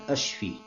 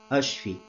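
Both takes have the same delivery.

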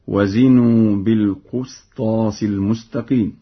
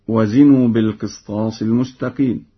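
First: The q of qistas has a u vowel. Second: The q of qistas has no u vowel.

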